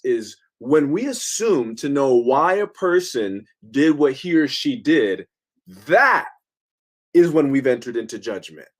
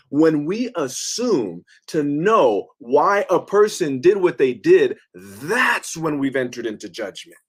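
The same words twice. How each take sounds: First: Said in the usual way. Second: Slowed down, leaning on know and did; slow emphatic repeat. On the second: Shown as a demonstration. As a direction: spell it out slowly, stressing know. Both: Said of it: "Did you hear what he says?".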